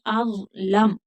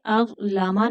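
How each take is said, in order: First: अज़लम ending on a silent closed m; अज़लम with no vowel after the m; stopped on a sukoon. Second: अज़लमा ending on a short open a; अज़लमा with the final vowel voiced; wrong way, final a. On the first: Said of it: "आखिरी हर्फ को साकिन कर देंगे". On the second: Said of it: "अज़लमा नहीं". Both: Shown as a demonstration.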